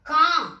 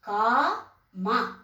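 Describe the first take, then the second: First: The final vowel is dropped, ending on m. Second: The final syllable keeps its vowel sound.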